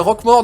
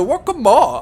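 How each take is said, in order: First: The name is said in a plain French accent. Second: The name is said in a German-like accent. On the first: "c'est Roquemort normal" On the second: "l'autre il disait Roquemort"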